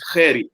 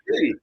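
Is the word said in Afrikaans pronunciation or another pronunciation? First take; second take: Afrikaans; another. First: It is said with Afrikaans pronunciation. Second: It is said without Afrikaans pronunciation. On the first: "if you explain it in Afrikaans, it's Gerry" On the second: "So now I say, yeah, this is Jerry"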